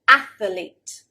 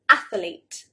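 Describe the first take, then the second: First: The word is said with three syllables. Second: The same.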